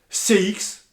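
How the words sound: The letters are said with French letter names. "On va dire aussi C X"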